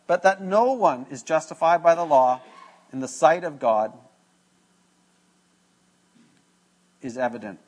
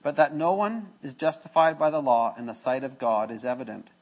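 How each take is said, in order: First: Reads "But that no one is justified by the law in the sight of God" then stalls with a long pause before "is evident"; stumbles, stops, then picks up "is evident" late; halting reading. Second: Reads "But that no one is justified by the law in the sight of God is evident" in one unbroken flow; the corrected take, steady with no stops; smooth reread. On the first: Preacher fumbles the verse before rereading it, broken halting read. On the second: Preacher rereads the verse properly, one smooth line. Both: Real, not acted. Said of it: "Let me say that one again".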